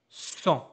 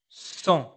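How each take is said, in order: Both takes have the same delivery.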